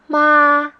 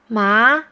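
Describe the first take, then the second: First: The word is said in the first tone. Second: The word is said in the second tone.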